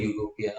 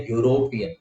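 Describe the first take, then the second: First: Said in the usual way. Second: यूरोपियन opening with a "yo" sound; correct pronunciation demo. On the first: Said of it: "हम बोलते हैं". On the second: Shown as a demonstration. Teacher shows the correct form, यूरोपियन said "yo-ropian". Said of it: "correct है यूरोपियन".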